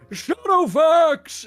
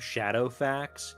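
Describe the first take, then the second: First: The name is said in a wizard voice. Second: The name is said in a plain voice. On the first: It sounds fitting for fantasy. The speaker calls it right. "you gotta say it like a wizard" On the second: It sounds strange and unconvincing. The speaker calls it wrong. "reading the word like the name Shadowfax"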